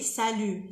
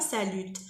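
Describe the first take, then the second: First: The final T sound is silent. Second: The final T sound is pronounced. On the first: The speaker calls it right. "on dit salut ... On ne prononce pas le T" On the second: The speaker calls it wrong. "on dit pas salut"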